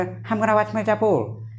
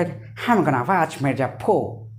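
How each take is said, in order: First: Lightly imitated American English; American accent. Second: Slow, lower mock British accent. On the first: Teacher showing how an American says it, mock American accent. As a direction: say it like an American, drawn out. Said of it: "American बोला". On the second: Teacher showing how the British say it, hammed-up British accent. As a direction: exaggerate a British accent, stretching the words. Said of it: "British वाले बोला".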